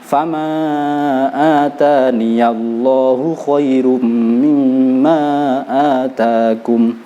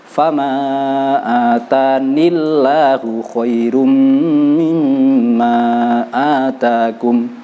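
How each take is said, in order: First: A 'ya' sound links 'ni' to 'llahu'. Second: The 'ni' runs straight into 'llahu' with no 'ya'. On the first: The speaker calls it right. "wasol harus ditambah ya" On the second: The speaker calls it wrong. "Tidak boleh kalau wasol kita baca seperti ini"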